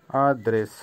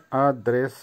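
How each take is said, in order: Both takes have the same delivery.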